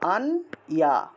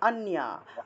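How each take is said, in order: First: The word is split into two separate parts. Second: The two parts are joined into one word. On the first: "এটাকে যদি আমরা সহজভাবে আর উচ্চারণ করতে চাই এভাবে।" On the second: "আন ইয়াটাকে একসাথে উচ্চারণ করতে হবে।"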